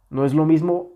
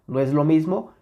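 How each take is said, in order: No difference in how they are said.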